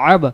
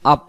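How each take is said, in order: First: The final b is released with an echoing bounce. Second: The final consonant is cut short without bounce. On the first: The speaker calls it right. "কলকলা আব।" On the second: The speaker calls it wrong. "আমি যদি বলি আপ, তাহলে হয়তো ফা উচ্চারণ হতে পারে।"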